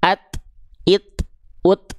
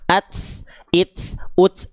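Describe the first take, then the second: First: Each syllable ends with a short puff of breath. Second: Each syllable ends with a hissing s sound. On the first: The speaker calls it right. "Cukup percikan aja" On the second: The speaker calls it wrong. "ada bunyi S S-nya"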